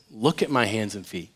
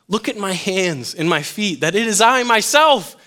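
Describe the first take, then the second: First: Low, soft, reassuring voice; gentle invitation. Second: Building, insistent quote of Jesus; emphatic scripture reading. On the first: Jesus showing his hands to hesitant disciples, gently. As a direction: offer it quietly to a doubter. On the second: Jesus proving himself to disciples, read emphatically. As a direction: build higher towards the end. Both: Acted.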